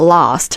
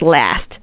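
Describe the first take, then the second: First: It is said with a British accent. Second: It is said with an American accent. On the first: "British English we will say last" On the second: "The American sound is last"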